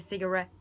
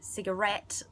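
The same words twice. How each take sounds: First: The final t sound is left off. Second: The final t sound is clearly pronounced. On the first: The speaker calls it wrong. "I sort of just go cigarette and, and never end it" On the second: The speaker calls it right. "I don't say cigarette"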